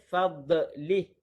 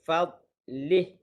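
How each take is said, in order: First: The consonant bounces with an echo. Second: The consonant is soft with no bounce. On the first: The speaker calls it wrong. "Jangan baca fadlih. Fadlih itu kurang tepat dan juga salah" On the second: The speaker calls it right. "Lembutkan lidah"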